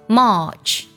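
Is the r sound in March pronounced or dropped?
dropped. The vowel has no r-colouring. "英式读作March"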